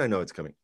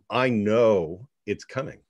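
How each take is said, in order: First: It is said casually, as a throwaway remark. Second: It is said firmly, with strong conviction. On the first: The goal is mentioned as an afterthought. The speaker calls it wrong. "Not, oh, and" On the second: The goal is certain to happen. The speaker calls it right. "I want to say that part again"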